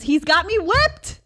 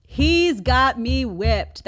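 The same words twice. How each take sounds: First: High, loud exclamation; emphatic admission. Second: Loud, drawn-out "He's got me whipped", word by word; slow emphasis. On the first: Mom admits her son controls her, exclaiming. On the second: Mom repeats that her son controls her, slow emphasis. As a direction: spell out each word slowly, ending raised on "whipped". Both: Real, not acted.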